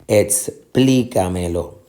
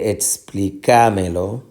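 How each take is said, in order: First: The stress falls on the second syllable. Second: The stress falls on the third syllable. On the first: It is the standard command form. "no estamos usando el voz para efectos de la lección, so vamos a decir explícamelo" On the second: It is the command form used with vos. "si usted usa el voz, va a decir explícamelo"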